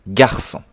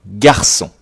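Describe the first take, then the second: No difference in how they are said.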